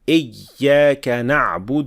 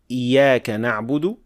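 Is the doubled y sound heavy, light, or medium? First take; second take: heavy; light. First: The y sound is pressed hard, splitting the word. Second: The y sound is short, like a single y. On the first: "This is too much pressing on the shadda" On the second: "too quickly or too lightly, like ... with one ya"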